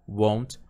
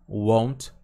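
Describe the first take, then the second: Both takes have the same delivery.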